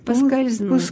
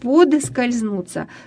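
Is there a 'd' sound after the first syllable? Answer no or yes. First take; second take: no; yes. First: No 'd' sound follows the first syllable. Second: A 'd' sound follows the first syllable. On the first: The speaker calls it right. "надо говорить" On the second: The speaker calls it wrong. "И пишут"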